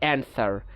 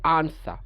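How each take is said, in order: First: It is said in an American accent. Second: It is said in a British accent.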